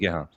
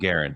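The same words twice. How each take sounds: First: The name is said with a French pronunciation. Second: The name is said with an English-style pronunciation. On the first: "if you wanted to say it French way" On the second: "I don't mind Guerin"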